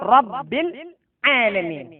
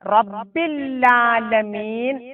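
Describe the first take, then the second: First: A slight break separates the words, single L. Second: The words run together with a doubled L. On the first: The speaker calls it right. "ഇവിടെ അല്പം മുറിച്ചുകൊണ്ട് ഓതുകയാണെങ്കിൽ ആ പ്രശ്നം വരുന്നില്ല" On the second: The speaker calls it wrong. "റബ്ബില്ലാലമീൻ എന്ന് സാധാരണ ഓതാറുണ്ട്"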